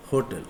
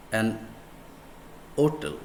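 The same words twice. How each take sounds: First: "hotel" begun with an audible H; sounded H. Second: "hotel" said as "otel"; silent H. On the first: Teacher contrasting for students, "hotel" with H sounded. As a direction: pronounce the H in "hotel". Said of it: "It's not". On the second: Teacher showing the vowel start, "hotel" with silent H. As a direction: drop the H of "hotel" entirely. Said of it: "a silent H". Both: Shown as a demonstration.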